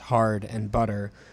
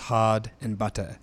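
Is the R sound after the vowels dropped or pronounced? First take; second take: pronounced; dropped. First: The R sound after the vowels is pronounced. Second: The R sound after the vowels is dropped. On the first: "a rhotic English speaker pronounces the words hard and butter as hard and butter" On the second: "a non-rhotic speaker drops or deletes the R sound, pronouncing them as hard and butter"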